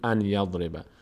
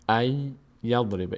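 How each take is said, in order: First: The n sound is pronounced before yadriba. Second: The n merges into a doubled y sound. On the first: The speaker calls it wrong. "نگین ان یضرب" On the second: The speaker calls it right. "نون تبدیل میشه به یا، اینجا نون تلفظ نمیشه"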